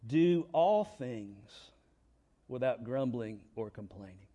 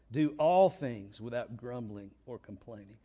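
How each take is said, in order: First: Weighty scripture emphasis on all; slow emphatic reading. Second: Said in the usual way. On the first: Shown as a demonstration. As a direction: stress on all, Do all things said slowly and deliberately. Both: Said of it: "Here's a great verse".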